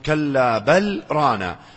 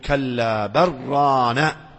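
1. وقفة خفيفة تُبقي اللام قبل 'ran'. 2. تُدغم اللام في الراء التي بعدها. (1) "أنتم تقولون ... قراءة الوقف" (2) "هم يقولون ... وتذهب اللام بالإدغام"

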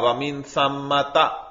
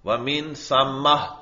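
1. لفظ ایک مکمل 'ta' کے حرف پر ختم ہوتا ہے۔ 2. لفظ ایک نرم 'h' کی آواز پر ختم ہوتا ہے۔ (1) "سمتا تو کہیں پر آئے گا" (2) "حالت وقف میں ہا سے بدل جاتی ہے"

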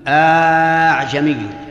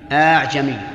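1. تصير الهمزة مدًّا طويلًا يُشبَع زيادةً. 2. تصير الهمزة مدًّا طبيعيًّا. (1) "وقلبها ألفا ... بإشباع" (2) "ودونه"

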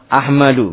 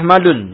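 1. Kata ini berakhir dengan vokal tanpa n. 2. Kata ini berakhir dengan bunyi n tambahan. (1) "Ahmadu harus tidak tanwin" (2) "Kalau dibaca dengan tanwin salah Ahmadun"

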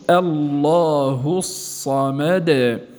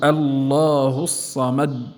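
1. الدال الأخيرة تُخرج مع ارتداد خفيف. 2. الدال الأخيرة تُوقف فجأة دون إخراج. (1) "وإنما قول الله الصمد" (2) "لا نقول الله الصمد، هذا تصادم"

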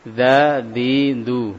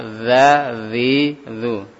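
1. Setiap suku kata dimulai dengan bunyi d yang keras. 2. Setiap suku kata dimulai dengan bunyi z yang bergetar. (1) "Ada yang baca seperti ini" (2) "yang tepat za zi zu"

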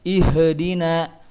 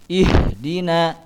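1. Bunyi h dipantulkan dengan gema. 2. Bunyi h halus tanpa gema. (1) "tidak boleh ihdina" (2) "Tapi dibacanya ihdina"

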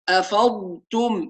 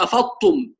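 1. صوت الضاد واضح وممتلئ وممتد. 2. صوت الضاد ضعيف وشبه مفقود. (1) "لازم نوضح الحرف" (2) "فين الضاد؟"

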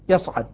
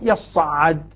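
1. حرفا الصاد والعين مخففان. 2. حرفا الصاد والعين مشددان. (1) "ويصعد خف ساكن" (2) "بتشديد الصاد والعين في كليه"

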